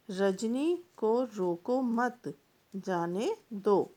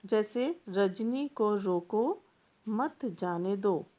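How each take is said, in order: First: Slow, with the break after मत before जाने दो; a slow teaching read with the comma after मत; pause after मत. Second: Slow, with a clear break after रोको before मत जाने दो; a slow teaching read with the comma after रोको; pause after रोको. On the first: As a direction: read Rajni को रोको मत, stop, then जाने दो. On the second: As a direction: read Rajni को रोको, stop, then मत जाने दो. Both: Shown as a demonstration. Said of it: "एक ही वाक्य एक अल्प विराम के प्रयोग से दो-दो अर्थ दे रहा है".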